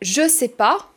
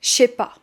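First: The word 'je' is said in full. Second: The word 'je' shrinks to a 'ch' sound. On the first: "au lieu de dire" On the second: "le « J » est prononcé comme « che »"

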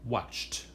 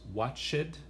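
First: The word ends in a t sound. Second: The word does not end in a t sound. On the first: The speaker calls it right. "Como si tuviera un T al fin de la palabra" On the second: The speaker calls it wrong. "No decimos watched"

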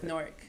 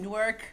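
First: The W sound is dropped, like Nork. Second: The W sound is pronounced in the name. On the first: The speaker is a local. The speaker calls it right. "nah, it's Newark. N-O-R-K" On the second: The speaker is an outsider to the city. The speaker calls it wrong. "if you have any of the W in there, it's Sova"

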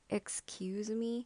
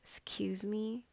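First: Every syllable, including the first, is fully pronounced. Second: The first vowel is dropped, starting from x. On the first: The speaker calls it wrong. "obviously pronouncing the word excuse me... It sounded like a bit rude to me" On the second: The speaker calls it right. "make the first letter E as like silent letter... just start from X... That's how I say it"

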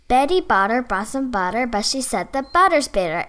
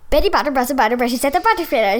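First: It is said at a medium-fast speed. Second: It is said as fast as possible.

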